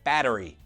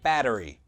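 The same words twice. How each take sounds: First: Said with an American accent, all syllables full. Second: Said with an American accent, all syllables full.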